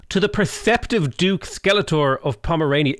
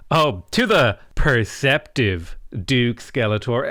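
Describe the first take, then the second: First: Said in the usual way. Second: Mock sarcastic reading. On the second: Shown as a demonstration. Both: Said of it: "I feel like that's somewhat sarcastic".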